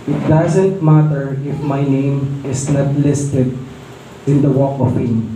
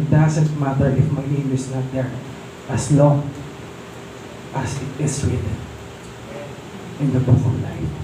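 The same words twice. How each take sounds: First: Slow, earnest retelling of the actor's words; sincere quote, slowed. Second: Fading softer toward the end; hushed quote. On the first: Preacher quoting actor to the congregation, slow and earnest. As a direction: let each word land slowly and sincerely. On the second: Preacher retelling the actor's line again, fading into a hush. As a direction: drop to a soft, moved hush. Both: Retold or imitated. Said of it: "Sabi niya".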